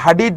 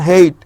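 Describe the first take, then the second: First: The name is said with a d sound. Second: The name is said with no d sound. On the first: The speaker calls it wrong. "ওনাকে আবার হাডিড বললেন না" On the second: The speaker calls it right. "ডিটা silent থাকে"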